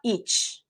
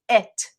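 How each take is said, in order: First: The word ends in a ch-like sound. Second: The word ends in a very light t. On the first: The speaker calls it wrong. "It's not each" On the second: The speaker calls it right. "the T is going to have a very, very light pronunciation"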